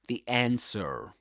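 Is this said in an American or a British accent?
American. It is said in an American accent. "That's in American English"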